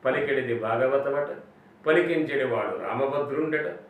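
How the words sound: 'Ata' is joined onto the end of each line. It is only hearsay that this is so. The speaker calls it wrong. "తెలియక చిన్నప్పుడు ... అని అలా చదివేశాం తెలియక"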